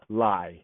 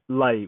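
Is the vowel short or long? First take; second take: long; short. First: The vowel is long. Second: The vowel is short. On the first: The speaker calls it wrong. "not lie, two A's. Right, that is improper" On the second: The speaker calls it right. "Lay with a short A"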